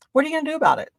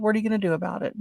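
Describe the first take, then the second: First: High-pitched, daring comeback; defiant challenge. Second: Said in the usual way. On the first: Retold or imitated. Customer challenges the market man, defiant and higher. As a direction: fling it out as a dare.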